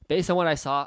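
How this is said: The voice sounds excited and enthusiastic. The offer is presented as surprisingly good. The speaker calls it right. "if he's that excited about it"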